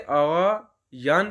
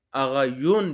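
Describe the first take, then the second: First: آغا یان said with a long open "aa" in the last syllable, aa-ghaa-yaan; Persian pronunciation. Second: آغا یون said with a rounded "oo" in the last syllable, aa-ghaa-yoon; Persian colloquial pronunciation. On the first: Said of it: "لفظ آغا یان بھی پڑھتے ہیں". (آغا یان کو "یان" کے ساتھ واضح تلفظ) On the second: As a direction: say آغا یون ending in "yoon", a bit quicker. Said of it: "آغا یون بھی پڑھتے ہیں". (آغا یون کو "یون" کے ساتھ بولچال کا تلفظ) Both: Shown as a demonstration.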